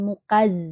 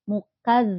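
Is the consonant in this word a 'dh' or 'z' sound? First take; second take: z; dh. First: The consonant is a buzzing 'z' sound. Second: The consonant is a soft 'dh' sound. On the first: The speaker calls it wrong. "bukan mukaz" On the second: The speaker calls it right. "zal ya, bukan za, tapi za"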